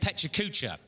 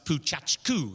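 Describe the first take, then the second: First: The name is said in an East London accent. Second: The name is said in an American accent. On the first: "East London wide boy pronunciation" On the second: "if you go to Americans doing it"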